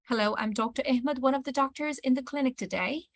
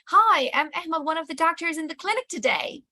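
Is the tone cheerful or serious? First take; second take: serious; cheerful. First: It is said in a serious, calm voice. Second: It is said in a big, cheerful voice.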